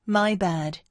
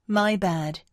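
Both takes have the same delivery.

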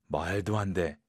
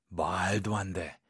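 No difference in how they are said.

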